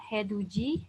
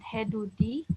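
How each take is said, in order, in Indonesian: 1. Konsonan terakhir terdengar seperti j. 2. Konsonan terakhir terdengar seperti d. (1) "ada heduji" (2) "bukan hedudi"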